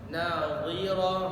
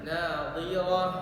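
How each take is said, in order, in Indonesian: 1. H di akhir dihembuskan sepenuhnya. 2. H di akhir dihembuskan sepenuhnya.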